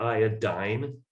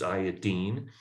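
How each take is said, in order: First: The last syllable does not rhyme with chlorine. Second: The last syllable rhymes with chlorine. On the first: The speaker calls it wrong. "It's not iodine" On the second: The speaker calls it right. "it's iodine. We call it iodine because it's in the same family with fluorine and chlorine and bromine"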